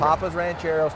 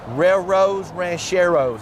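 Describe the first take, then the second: First: The name is said in a plain accent. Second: The name is said in a Spanish accent.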